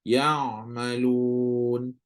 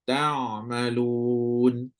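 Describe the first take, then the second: First: Ya malun drawn out very slowly, the ayn voiced from the throat; correct ayn sound. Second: Tak malun drawn out very slowly, the ayn voiced from the throat; correct ayn sound. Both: Shown as a demonstration. Teacher demonstrates the right Quranic ayn. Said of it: "Kena bagi bunyi".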